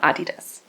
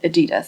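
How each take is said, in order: First: The name is pronounced the German way. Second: The name is pronounced the English way. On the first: "in proper German, I would call them Adidas" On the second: "since you know this is an uh, video in English, I will stick with Adidas"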